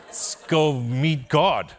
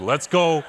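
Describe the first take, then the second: First: Slow, loud, stretched grand call; mock-epic slow rallying cry; drawn-out hype. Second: Laughing, loud and high with eagerness; a gleeful loud whoop; eager shout. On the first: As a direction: savor each word like a big announcement. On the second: Retold or imitated. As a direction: fire yourself up, all in. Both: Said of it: "I was like".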